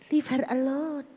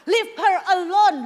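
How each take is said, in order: First: It is said mildly, without anger. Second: It is said sternly and angrily.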